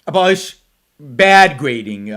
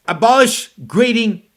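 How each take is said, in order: First: "bad" drawn out slowly, then dropping; stress on bad. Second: "abolish" and "grading" each set apart with weight; emphatic restatement. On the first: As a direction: lean long and hard on "bad". Contrasts what is not being said. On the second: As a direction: land firmly on "abolish", then "grading". States what is actually said. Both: Shown as a demonstration.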